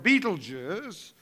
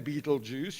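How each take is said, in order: First: The name is said in its careful form. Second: The name is said like 'Beetlejuice'. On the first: The speaker calls it right. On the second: The speaker calls it wrong.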